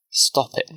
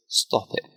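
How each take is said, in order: First: Mild narrated shout. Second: Understated hurt plea; quiet upset, voice about to break. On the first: Daughter protests to her father, understated tearful shout. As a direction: raise the pitch in a restrained outcry. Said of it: "Hillary shouts, crying now". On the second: Daughter begs her father to stop, voice breaking. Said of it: "her voice breaking now". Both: A narrator's reading.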